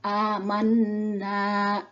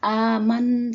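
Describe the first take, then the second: First: The word ends in a lengthened vowel. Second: The word ends on the consonant n. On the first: The speaker calls it right. "langsung dibaca amanna, dipanjangkan dua harokat" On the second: The speaker calls it wrong. "tidak dibaca aman saja"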